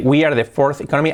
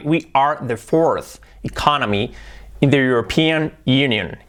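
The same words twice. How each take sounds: First: "We are the fourth economy" with weak English R's; "We are the fourth economy" in Spanish-flavoured sounds; imitated learner pronunciation. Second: "We are the fourth economy" slowly, R's fully sounded; slow, careful "We are the fourth economy"; clear English R. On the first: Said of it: "cambia de decir". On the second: Shown as a demonstration. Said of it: "la R".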